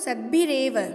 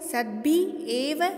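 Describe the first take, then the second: First: The two words are joined into one flowing word. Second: The two words are said separately with a break. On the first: "संयुक्त करके पढ़ती हूँ" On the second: "इस तरह से भी उच्चारित कर सकते हैं"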